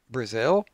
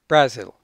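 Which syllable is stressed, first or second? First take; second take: second; first. First: The stress is on the second syllable. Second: The stress is on the first syllable. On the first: The speaker calls it right. "we pronounce with the stress on the second syllable" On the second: The speaker calls it wrong. "moves the stress to the first syllable"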